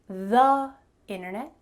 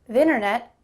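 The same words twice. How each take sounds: First: 'The' is said with a full 'thee' vowel. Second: 'The' is cut to a quick 'th' sound. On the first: "I didn't say the internet" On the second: "I just said th"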